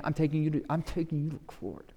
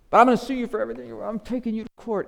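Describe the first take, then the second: First: Muttered threat with the jaw set; through his teeth. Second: High, fast, loud threat to sue; rapid high shouting threat; shouted threat. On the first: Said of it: "I'm sure he did it through his teeth". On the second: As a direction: blow up at the debtor. Servant's threat rising. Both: Acted.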